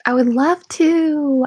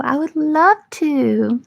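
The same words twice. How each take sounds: First: First take, raised pitch. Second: Higher, slower, eerie demon voice; creepy demon voice. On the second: Answering a viewer's request to be their sleep paralysis demon, in a creepy demon voice. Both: Pretend. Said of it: "will you become my sleep paralysis demon".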